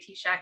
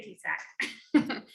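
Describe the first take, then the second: First: The name is said with an 'sh' sound. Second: The name is said with an 's' sound. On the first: The speaker knows the organization. The speaker calls it right. "we always know people know us if they say T-Shack" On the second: The speaker does not know the organization. The speaker calls it wrong. "so don't say T-Sack"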